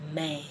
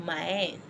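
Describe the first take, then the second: First: The vowel sounds like English 'eh'. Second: The vowel sounds like English 'eye'. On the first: The speaker calls it right. "I said men" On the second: The speaker calls it wrong. "I didn't say mine or mine"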